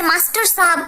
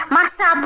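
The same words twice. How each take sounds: First: Said in the usual way. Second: मास्टर shortened to मास, dropping the -टर; lazy everyday मास साहब; clipped casual form. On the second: Shown as a demonstration. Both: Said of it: "मास साहब बोल देते हैं".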